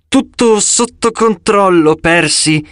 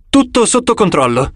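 First: Slow, tense, higher through gritted teeth; strained gritted-teeth repeat. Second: Said in the usual way. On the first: A narrator's reading. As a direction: force it out through clenched teeth. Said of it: "ripeté lei a denti stretti". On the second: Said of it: "disse Talia".

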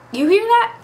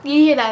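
First: Excited. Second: Said in the usual way. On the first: Real, not acted. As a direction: share the news with a thrill. Excited about countdown.

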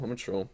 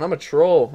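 First: Trailing off, much softer; I'm a troll, almost inaudible; quiet mutter. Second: Said in the usual way. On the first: Real, not acted. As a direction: mutter it to yourself.

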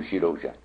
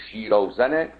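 First: "شیراوژن" with a zh sound; present-day pronunciation. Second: "شیراوزن" with a z sound; text's pronunciation. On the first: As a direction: say "شیراوژن" lower, with zh for z. («شیراوژن» با صدای «ژ»، تلفظ امروزی) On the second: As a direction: say "شیراوزن" with a plain z, as recited. («شیراوزن» با صدای «ز») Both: Shown as a demonstration.

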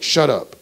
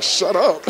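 First: Sharp, louder, higher "shut up"; youth pastor's rebuke. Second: High, loud, incredulous "shut up"; stunned echo. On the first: Youth pastor to crying player, firm rebuke. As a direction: cut off the crying with a retold rebuke. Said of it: "and he's like". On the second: Crying player echoing pastor's rebuke, stunned. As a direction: echo the rebuke in disbelief, close to laughing. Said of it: "I'm like". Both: Retold or imitated.

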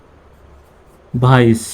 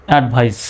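First: Slow drawn-out demo. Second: Said in the usual way. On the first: Shown as a demonstration. Teacher modelling advice for the class, very slowly drawn out. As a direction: stretch advice out very slowly, syllable by syllable.

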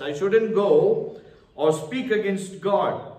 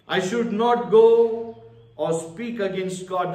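First: Slow, weighted, stress on shouldn't; preacher repeating the lesson slowly for emphasis; slow emphatic repeat. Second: Said in the usual way. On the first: Shown as a demonstration. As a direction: lean hard on shouldn't and drag it out. Sermon point stated then repeated.

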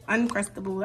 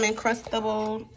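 First: "Uncrustable" with an "uhn" first syllable; self-corrected pronunciation. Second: "Uncrustable" misspoken with an "in" first syllable; slip of the tongue. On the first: Vlogger fixing a slip, "Uncrustable" said with UN first. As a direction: say "Uncrustable" starting with UN, not IN. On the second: Vlogger listing snacks slips, "Uncrustable" said as Incrustable. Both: Real, not acted. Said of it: "I said Incrustables".

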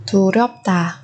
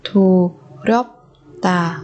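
First: Said in the usual way. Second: "Thù rớp tà" with pauses between syllables. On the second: Shown as a demonstration. Teacher modelling a word for learners, syllable by syllable. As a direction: break "Thù, rớp, tà" apart.

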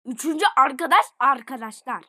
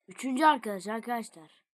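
First: Louder excited repeat. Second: Said in the usual way. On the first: Real, not acted.

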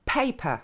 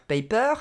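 First: Paper said slowly, with the first syllable stressed and aspirated p's; English paper. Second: Paper said the French way, with no puff of air on the p; French-accented paper. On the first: Teacher modelling correct English plosives, slow demo. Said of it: "mais paper". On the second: Teacher showing the wrong version, French accent. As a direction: say paper like a francophone. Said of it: "ne va pas se dire paper". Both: Shown as a demonstration.

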